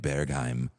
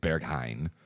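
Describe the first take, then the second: First: The word ends with an M sound. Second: The word ends with an N sound. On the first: The speaker calls it wrong. "there's just people that put M's" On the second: The speaker calls it right. "it's not, it's Berghain"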